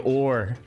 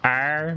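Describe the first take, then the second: First: The letter is said with an 'or' vowel. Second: The letter is said with an 'ar' vowel. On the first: "we say or" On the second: "people from Dublin don't say R"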